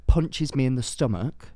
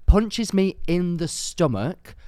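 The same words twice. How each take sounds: First: Said in the usual way. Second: "Punches" lifted high and drawn out slowly, each word weighted; slow, disbelieving repeat of "Punches me in the stomach"; repeated for emphasis. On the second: Retold or imitated. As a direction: stretch "Punches" as if you still can't believe it.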